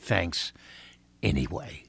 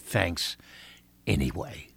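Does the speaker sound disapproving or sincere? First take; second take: disapproving; disapproving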